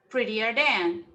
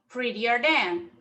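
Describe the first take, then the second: Both takes have the same delivery.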